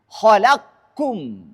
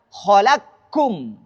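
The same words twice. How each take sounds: Both takes have the same delivery.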